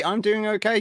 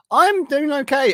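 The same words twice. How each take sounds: First: Said in the usual way. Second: Slow, much higher and louder sing-song. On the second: Real, not acted. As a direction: draw it out high and playful. Answering chat, stretched.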